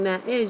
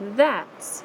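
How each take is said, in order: First: It is said as two full separate words. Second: It is shortened into one contracted syllable. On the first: "instead of saying that is" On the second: "if you want to shorten that"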